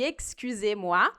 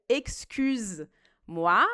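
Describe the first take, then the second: First: An 'eh' vowel is sounded before 'moi'. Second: It ends 'excuse' with no vowel before 'moi'. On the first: It uses the polite form for someone unknown. The speaker calls it right. "ao invés de excusez-moi" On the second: It uses the familiar form and insults a stranger. The speaker calls it wrong. "se a gente pronuncia excuse-moi"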